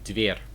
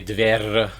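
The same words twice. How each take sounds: First: The final R is soft, not rolled. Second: The final R is strongly rolled. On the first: The speaker calls it right. "you don't roll the R. It's kind of soft" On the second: The speaker calls it wrong. "you don't say dver like that"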